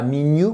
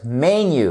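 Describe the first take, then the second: First: "menu" with the wrong first vowel, like "minu"; "menu" as mi-nyu, first vowel too tight; mispronounced menu. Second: "menu" as MEN-yu, open first vowel; "menu" the English way, MEN-yu. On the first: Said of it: "Et pas menu". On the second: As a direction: stress the first syllable of "menu". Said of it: "que vous avez l'accentuation". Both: Shown as a demonstration.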